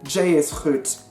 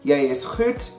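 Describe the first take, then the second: First: The first word starts with a j sound. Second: The first word starts with a y sound. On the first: This is the Kaaps dialect form. "the J in Afrikaaps is pronounced with a j sound" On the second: This is the standard Afrikaans form. "instead of a y sound"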